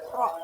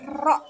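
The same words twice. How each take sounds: First: The r is soft and only lightly trilled. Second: The r is pressed and strongly trilled. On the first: The speaker calls it right. "tapi lidahnya tidak boleh terlalu bergetar" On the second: The speaker calls it wrong. "pengucapannya tidak boleh ro. Tidak usah ditekan"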